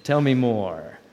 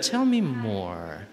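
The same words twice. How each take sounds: First: Plain pace, a wink of knowing; the classroom version, brisk and knowing; knowing tell me more. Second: A slow, patient tell me more; slow gentle invitation. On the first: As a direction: say it like you're in on the joke. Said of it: "now you knew it". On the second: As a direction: stretch it out kindly, really inviting. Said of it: "But I do use that". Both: Shown as a demonstration.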